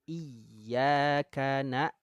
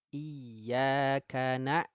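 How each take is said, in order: Both takes have the same delivery.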